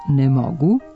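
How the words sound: The stress falls on the word mogu.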